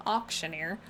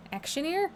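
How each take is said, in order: First: "Auctioneer" with an "aw" sound as in "auction", said lower and settled; self-correcting "Auctioneer", stressing the "auc" as "awk" on a flat, low tone; corrected pronunciation. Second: "Actioneer?" with a short "a" as in "act", asked on a high rising tune; puzzled "Actioneer?", starting like "action", pitch sliding up as a question; wrong pronunciation. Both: Real, not acted.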